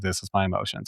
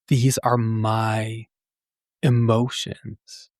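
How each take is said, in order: First: It is said casually, in passing. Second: It is said with deep feeling.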